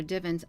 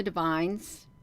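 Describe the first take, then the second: First: "divans" as DIV-unz, stress on the first syllable; alternative pronunciation. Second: "divines" as dih-VINES, weight on the second syllable; unsure pronunciation. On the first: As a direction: offer "divans" with a short i up front. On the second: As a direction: say "divines" with a long i at the end. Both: Shown as a demonstration. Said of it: "I don't know how to pronounce that".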